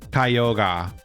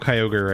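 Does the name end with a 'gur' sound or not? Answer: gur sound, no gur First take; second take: no gur; gur sound. First: The name ends without any 'gur' sound. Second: The name ends with a 'gur' sound. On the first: This is how the name is said in Japanese. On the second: This is the usual English name.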